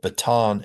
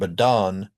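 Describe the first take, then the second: First: The middle T is a full T sound. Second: The middle T is a quick flap.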